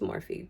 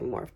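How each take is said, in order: First: The name ends with an extra vowel sound. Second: The name ends on the consonant f sound. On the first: "I think it's Morphe" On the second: "sometimes I say Morph"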